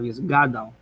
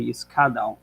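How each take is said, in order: First: The consonant after the s is a g. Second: The consonant after the s is a hard k. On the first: The speaker calls it right. "instead of yisgadal" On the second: The speaker calls it wrong. "people often say yiskadal"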